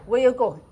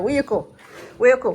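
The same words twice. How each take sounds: First: Lightly mimicked birdcall phrase, a little louder; mock the bird's question in a light sing-song; imitating the bird. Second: Light mock birdcall, louder on the last one; imitating the bird call. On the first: Mimicking the bird's call to the viewers, lightly voiced. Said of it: "like what they say". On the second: Telling viewers how the bird sounds, a light mock call. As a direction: echo the bird's chirpy question. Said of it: "Something like that".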